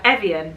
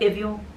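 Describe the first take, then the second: First: The name is said with an English pronunciation. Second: The name is said with a French pronunciation. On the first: This is how people here say it. "But over here we're like Evian" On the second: This is how people in France say it. "in France. They'd be like Evian"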